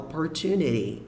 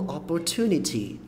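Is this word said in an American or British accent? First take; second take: American; British. First: The final T is a light tap. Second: Both T sounds are crisp and strong. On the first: "O inglês americano fala opportunity" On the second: "pronúncia mais britânica, que puxa mais o T"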